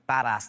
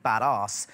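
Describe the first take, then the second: First: Said in the usual way. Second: Badass with a long 'ah', as bad-arse; posh British pronunciation. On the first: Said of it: "nothing sounds less badass than saying badass". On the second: Shown as a demonstration. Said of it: "badass has this very posh sound".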